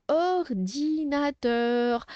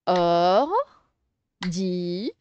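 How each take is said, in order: First: Said in the usual way. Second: "Or-di-na-teur" very slow, four stretched beats with pauses; syllable by syllable. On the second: Shown as a demonstration. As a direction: sound out "Or-di-na-teur" one syllable at a time. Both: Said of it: "on va séparer les syllabes".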